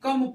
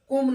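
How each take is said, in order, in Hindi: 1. यह स्वर छोटी 'uh' ध्वनि है। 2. यह स्वर 'oo' ध्वनि है। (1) "सी ओ एम ई कम पढ़ते" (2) "कुम नहीं पढ़ते"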